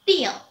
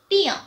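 No difference in how they are said.

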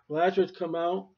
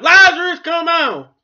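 First: It is said in a normal, quiet voice. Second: It is shouted loudly.

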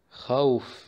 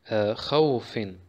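First: The word ends on a bare final consonant. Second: The word ends with a nasal 'in' sound. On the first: The reader stops on this word. "Stoppen wir, sagen wir" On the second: The word is read on, without stopping. "kommen wir jetzt zu den Tanwin al-Kasra"

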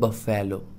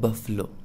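First: The middle syllable has a full 'e' vowel. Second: The middle syllable has a reduced vowel. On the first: The speaker calls it wrong. "But बफेलो बिल्कुल गलत है" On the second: The speaker calls it right. "Correct pronunciation इसका होगा"

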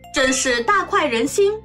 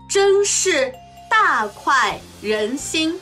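First: It is spoken at natural fast speed. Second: It is spoken slowly and deliberately. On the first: "中国語ネイティブスピード1 回" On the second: "中国語ゆっくりスピード1 回"

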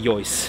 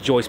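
First: The name is said with the local German pronunciation. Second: The name is said with an English-style pronunciation. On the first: The speaker calls it right. "but it is actually Jois" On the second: The speaker calls it wrong. "As a native English speaker, I happen to have a habit of calling it Jois"

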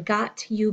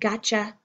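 First: The two words are said fully and separately. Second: The words blend into one reduced word. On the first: "got you becoming gotcha" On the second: "got you becoming gotcha"

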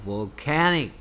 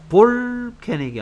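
First: The stress falls on the second syllable. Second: The stress falls on the first syllable. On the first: The speaker calls it right. "이음절에 강세가 있어요" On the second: The speaker calls it wrong. "볼케닉이 아니고"

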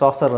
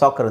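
First: The middle consonant is an s sound. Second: The middle consonant is a k sound. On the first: The speaker calls it wrong. "ಇದನ್ನು ಸಾಸರ್ ಅಂತ ಹೇಳಲ್ಲ" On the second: The speaker calls it right. "ಸಾಕರ್ ಅಂತ ಹೇಳ್ತೀವಿ"

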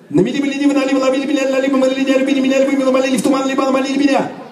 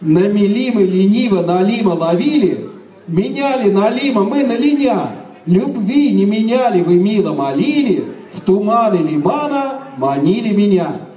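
First: It is said very fast. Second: It is said very slowly.

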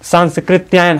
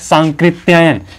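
First: An s sound comes before the k. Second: No s sound comes before the k. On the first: The speaker calls it wrong. "हम सब लोग क्या है उच्चारण करते हैं ना" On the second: The speaker calls it right. "सांकृत्यायन होता है"

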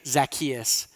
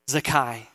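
First: The name ends with an s sound. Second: The name ends without an s sound. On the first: "Zacchaeus with the S at the end of it" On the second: "the S sound is missing"

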